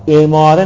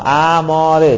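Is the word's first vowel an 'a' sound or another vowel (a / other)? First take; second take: other; a. First: The first vowel is not an 'a' sound. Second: The first vowel is an 'a' sound. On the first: The speaker calls it wrong. "اماره نگید آقا" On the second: The speaker calls it right. "به فتح همزه"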